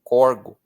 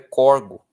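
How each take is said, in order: The two takes are said the same way.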